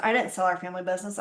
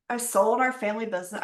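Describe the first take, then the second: First: Didn't pushed as a quick correction, fast; quick self-correction, weight on didn't; stress on didn't. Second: Said in the usual way. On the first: Real, not acted. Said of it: "I closed it".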